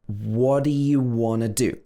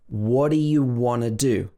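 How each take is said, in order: Both takes have the same delivery.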